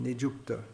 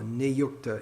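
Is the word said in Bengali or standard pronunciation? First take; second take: Bengali; standard. First: It is said in Bengali-style pronunciation. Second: It is said in standard Sanskrit pronunciation. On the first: "in Bengali pronunciation" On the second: "in standard pronunciation"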